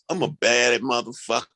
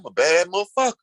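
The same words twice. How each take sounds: First: It is said with negative, ashamed energy. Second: It is said proudly, with confident energy. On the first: Bad here means bad. "It's a different energy attached to it" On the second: Bad here means good. "oh, yeah"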